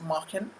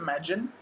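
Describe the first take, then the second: First: The middle consonant is a breathy H-like sound. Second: The middle consonant is a hard G sound. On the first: The speaker calls it right. "The G is pronounced like an H in the language" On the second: The speaker calls it wrong. "It's not Magen"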